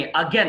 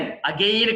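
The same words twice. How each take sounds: First: Again said "uh-GEN"; short e in Again; correct pronunciation. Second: Again said "a-GAYN"; long ay in again; mistaken pronunciation. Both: Shown as a demonstration. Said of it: "again కాదు అది".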